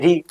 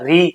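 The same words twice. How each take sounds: First: The syllable is short and light. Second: The syllable is said with more force. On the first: "री छोटा सा हम बोलेंगे" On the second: "ज्यादा जोर से बोलेंगे"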